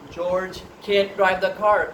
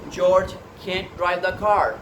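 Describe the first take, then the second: No difference in how they are said.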